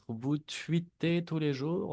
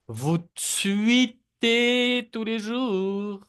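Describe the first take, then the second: First: Said in the usual way. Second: Higher and louder, tweetez drawn out slowly; exaggerated slow model. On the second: Shown as a demonstration. Teacher exaggerates the sentence for students to copy. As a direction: sing out tweetez slowly for the class. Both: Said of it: "repiten las frases también".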